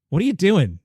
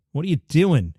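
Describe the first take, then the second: First: What are "you" doing with "you" punched higher; exasperated jab with "you" stressed, ending in a fall. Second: What are you "doing" with the weight on "doing", falling off at the end; exasperated question with a falling finish; stress on doing. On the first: Repeated complaint at refs. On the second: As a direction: lean on "doing" and let the pitch drop. Frustrated at refs, asked twice. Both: Real, not acted.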